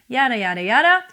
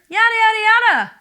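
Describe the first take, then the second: First: It is at a normal, medium speaking pitch. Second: It is at a higher pitch than normal. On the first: "which is what you usually talk in, like I am doing right now" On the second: "You can do this higher"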